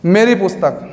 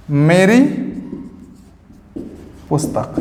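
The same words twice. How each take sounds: First: Said in the usual way. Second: Word by word with a long pause between; slow dictation. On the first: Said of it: "teacher gives example phrase". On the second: Shown as a demonstration. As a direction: dictate slowly so students can write. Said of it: "teacher dictates word by word". (धीरे-धीरे शब्द अलग करके बोलना)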